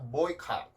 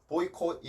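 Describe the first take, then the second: First: The last syllable has an 'ah' vowel. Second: The last syllable has an 'oh' vowel. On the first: The speaker calls it right. "콧 발음만 캅으로 바꿔주시면 돼요" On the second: The speaker calls it wrong. "보이콧이 아니라"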